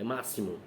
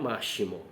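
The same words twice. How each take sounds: First: The x is said as an s sound. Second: The x is not said as an s sound. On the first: The speaker calls it right. "este meu X tem o som de S" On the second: The speaker calls it wrong. "não é máximo"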